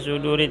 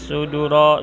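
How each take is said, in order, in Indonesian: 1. Kata itu diakhiri dengan huruf hidup i. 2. Kata itu diakhiri dengan huruf hidup a. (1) "suduri harus dibaca suduri" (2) "tidak boleh suduro"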